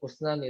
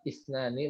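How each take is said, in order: First: The word begins with the vowel u. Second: The word begins with the vowel i. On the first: The speaker calls it wrong. "usnani tapi isnani" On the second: The speaker calls it right. "isnani bukan asnani"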